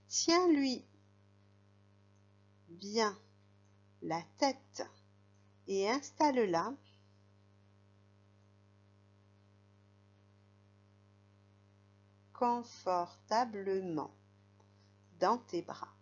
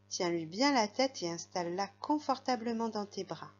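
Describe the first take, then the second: First: The sentence is broken up by pauses. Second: The sentence flows with expressive intonation. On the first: "je vais faire des pauses et tu dis le mot qui manque" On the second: "Je recommence avec l'intonation"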